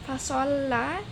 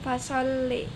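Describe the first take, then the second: First: The final vowel is a plain open a. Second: The final vowel is fronted toward e.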